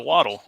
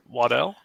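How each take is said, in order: First: "Waddle" stressed on the first syllable; alternate pronunciation. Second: "Waddell" with a full DELL ending; alternate pronunciation. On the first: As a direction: say "Waddle" like the verb, WAH-dul. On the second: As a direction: say "Waddell" as wah-DELL, questioning. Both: Shown as a demonstration. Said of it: "Is that how you say his name?".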